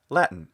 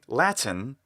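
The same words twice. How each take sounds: First: The middle T is swallowed, as in mitten. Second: The middle T is pronounced clearly and distinctly. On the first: This is the normal everyday way. "normally the word is simply pronounced Latin, just as we say mitten or kitten" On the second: This gives extra clarity or emphasis. "when we want to have extra clarity"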